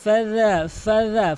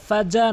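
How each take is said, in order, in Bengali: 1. 'dh' উচ্চারণ হয় জিভ দাঁতের সঙ্গে লাগিয়ে। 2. 'dh' উচ্চারণ দাঁতের সঙ্গে লাগিয়ে হয় না। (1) "জিহ্বার আগা সামনে দুই দাঁতের আগার সঙ্গে লাগিয়ে" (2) "ফাজা নয়"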